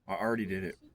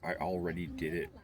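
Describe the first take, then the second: First: The L in 'already' is dropped. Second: The L in 'already' is clearly pronounced. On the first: The speaker calls it wrong. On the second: The speaker calls it right.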